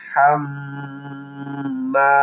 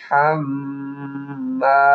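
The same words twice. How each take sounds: The two takes are said the same way.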